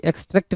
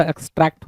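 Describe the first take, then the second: First: "एक्सट्रैक्ट" said as "ex-trekt"; wrong pronunciation. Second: "एक्सट्रैक्ट" said as "ex-tract"; correct pronunciation. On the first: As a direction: close E sound in the last syllable of "एक्सट्रैक्ट". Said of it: "एक्सट्रैक्ट नहीं होता". ("एक्सट्रैक्ट" को "एक्सट्रेक्ट" बोलें) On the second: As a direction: open A sound in the last syllable of "एक्सट्रैक्ट". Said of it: "एक्सट्रैक्ट होता है". ("एक्सट्रैक्ट" में "ट्रैक्ट" का खुला ऐ) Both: Shown as a demonstration.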